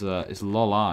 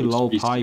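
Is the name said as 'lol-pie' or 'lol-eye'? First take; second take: lol-eye; lol-pie. First: The name is said as 'lol-eye'. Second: The name is said as 'lol-pie'. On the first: The speaker calls it right. "But it's Lol Eye, isn't it?" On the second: The speaker calls it wrong. "I always say Lol Pie Popcorn"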